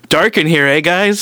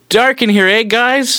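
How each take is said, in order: First: It is said less loudly. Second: It is said more loudly.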